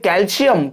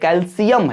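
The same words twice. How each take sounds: First: It is pronounced the common Indian way. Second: It is pronounced the standard English way. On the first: The speaker calls it wrong. "हम बोलते हैं कैल्शियम, कैल्शियम नहीं है" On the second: The speaker calls it right. "कैल्शियम है"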